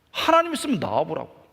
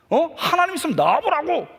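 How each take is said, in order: First: Said in the usual way. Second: Higher and louder, 하나님 flung out in a yell; defiant yell. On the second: Retold or imitated. Angry teen boy yelling his dare at God. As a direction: shout the dare at the sky. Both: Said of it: "막 소리를 속에서 지르면서".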